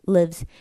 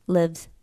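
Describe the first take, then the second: First: The final z sound is very light. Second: The same.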